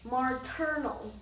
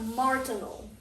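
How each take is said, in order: First: The first syllable sounds like 'muh'. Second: The first syllable sounds like 'mar'. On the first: The speaker calls it right. "That's how you pronounce it" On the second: The speaker calls it wrong. "not martinal"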